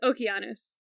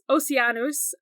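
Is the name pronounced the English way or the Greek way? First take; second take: Greek; English. First: It is said the Greek way with a k. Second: It is said with an English soft c. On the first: "if you want to say it in Greek" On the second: "So so you say Oce- Oceanus"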